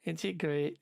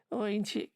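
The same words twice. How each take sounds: First: Scouse attempt slipping into West Country; mock West Country, badly aimed; accidental West Country accent. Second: High-pitched, botched Scouse; attempted Scouse accent. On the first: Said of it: "why I'm doing West Country accent". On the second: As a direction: have a shaky go at mock Scouse. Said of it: "I can't do a scouse accent".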